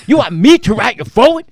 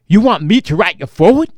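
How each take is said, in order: First: Much higher, louder, faster repeat of the question; his voice climbs as the disbelief grows; even more incredulous. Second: Louder, faster, disbelieving question; Tracy can't believe he's being asked, loud and fast; incredulous loud question. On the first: Comedian repeating the request back, higher and louder in disbelief. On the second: Comedian asked to write the foreword, loud incredulous question. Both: Retold or imitated. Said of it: "I thought maybe I was gonna get yelled at".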